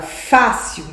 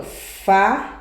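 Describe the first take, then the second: First: Said in the usual way. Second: "fácil" split into fá, pause, cil; syllable by syllable. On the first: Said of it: "Quando eu falo na palavra fácil". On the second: Shown as a demonstration. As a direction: break "fácil" slowly into two separate syllables. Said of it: "é a penúltima sílaba".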